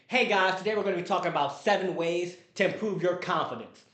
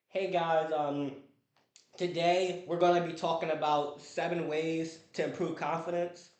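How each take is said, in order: First: It is said with lively, high energy. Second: It is said with flat, low energy.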